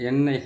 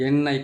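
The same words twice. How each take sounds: The two takes are said the same way.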